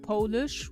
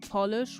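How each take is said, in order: First: It is pronounced like the nationality word. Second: It is pronounced like the shine product word. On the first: It names the language and people of Poland. "which is the language, which is for the Polish people" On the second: It names a product that makes things shine. "which is like nail polish"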